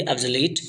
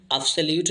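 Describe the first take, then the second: First: ऑब्सोलीट with a long 'ee' in the last syllable; corrected pronunciation. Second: ऑब्सोल्यूट with a 'yoo' glide in the last syllable; mispronounced obsolete. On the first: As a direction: say ऑब्सोलीट, ending like 'leet'. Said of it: "इसे हम ऑब्सोल्यूट नहीं पढ़ेंगे". (ऑब्सोलीट का सही उच्चारण, अंत में लंबी ई वाला 'लीट') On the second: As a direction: say ऑब्सोल्यूट, ending like 'lyoot'. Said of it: "ऑब्सोल्यूट नहीं पढ़ेंगे". (ऑब्सोल्यूट का गलत उच्चारण, अंत में 'ल्यूट') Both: Shown as a demonstration.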